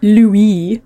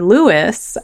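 First: The name is said the French way. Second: The name is said the English way.

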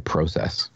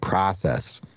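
First: The word has a Canadian pronunciation. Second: The word has an American pronunciation. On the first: "because I'm still in Canada, I can say process" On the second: "when I'm back in America, I got to go through the process"

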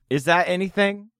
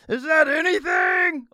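First: It is said in his normal voice. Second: It is said in a Pee-wee Herman voice.

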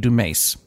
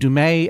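First: The name is said with an English-style pronunciation. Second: The name is said with a French pronunciation. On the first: "the Ricky Gervais pronunciation would be Dumais" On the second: "The French pronunciation would be Dumais"

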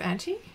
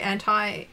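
First: It is said the speaker's non-American way. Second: It is said the North American way. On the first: "Instead of anti?" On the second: "you know how they say anti"

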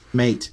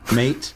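First: The name is said in an Australian accent. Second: The name is said in an Australian accent.

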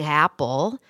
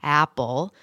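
First: The word starts smoothly with open airflow. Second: The same.

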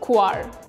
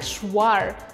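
First: It is said with the irregular, unexpected pronunciation. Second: It is said the way the spelling suggests. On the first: The speaker calls it right. "это слово относится к исключению, потому что оно французского происхождения" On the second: The speaker calls it wrong. "хочется прочитать это слово как"

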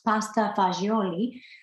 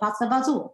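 First: The second word ends in a full vowel. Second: The second word is clipped, ending in a consonant. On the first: The speaker calls it right. "supposed to be pronounced" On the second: The speaker calls it wrong. "most New Yorkers butcher it"

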